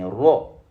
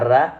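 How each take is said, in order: First: The vowel is a rounded o sound. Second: The vowel is an open a sound. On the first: The speaker calls it right. "mais ro" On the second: The speaker calls it wrong. "On ne dira pas ra"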